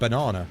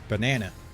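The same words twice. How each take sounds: First: Banana is said in a British accent. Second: Banana is said in an American accent. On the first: "But we would call it a banana" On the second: "Americans and that call it banana"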